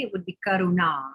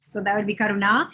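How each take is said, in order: First: "Karuna" with stress on the long ah at the end; Sanskrit pronunciation. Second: "Karuna" with the long ah at the end stressed; Sanskrit pronunciation. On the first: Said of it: "your name would be pronounced Karuna". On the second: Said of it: "that's where the accent would be". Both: Shown as a demonstration.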